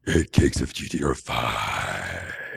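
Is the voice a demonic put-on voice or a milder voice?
demonic. The voice is a strained, deep demonic voice. The speaker calls it right. "why don't you talk like that all the time?"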